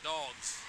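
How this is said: It is said in a Midwestern American accent. "You say it with a Midwestern kind of accent"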